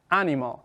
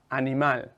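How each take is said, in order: First: Animal said in English, stressed on the first syllable; English animal, like "AN-ih-mul"; English pronunciation. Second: Said in the usual way. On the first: Shown as a demonstration. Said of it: "en inglés". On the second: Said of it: "Para decir un animal en inglés".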